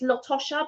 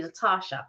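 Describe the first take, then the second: First: "Latosha" with a short "o" in the middle; mistaken pronunciation. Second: "Latasha" with long "ah" in the middle; correct pronunciation. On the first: Retelling how people misread her name, "Latosha" with "o". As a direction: rhyme the middle of "Latosha" with "posh". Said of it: "a lot of people say it's Latosha". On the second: Retelling the girl's correction, "Latasha" as "La-tah-sha". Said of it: "but it's actually Latasha". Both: Retold or imitated.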